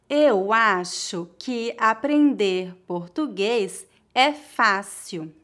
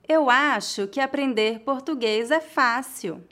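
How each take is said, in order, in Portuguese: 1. A frase é falada devagar e com cuidado. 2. A frase é falada em ritmo natural. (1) "Uma vez mais devagar" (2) "outra vez mais naturalmente"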